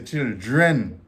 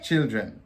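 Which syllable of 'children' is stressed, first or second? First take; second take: second; first. First: The stress is on the second syllable. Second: The stress is on the first syllable. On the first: "a lot of people here stress on the dren. They say children" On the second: "It's really children"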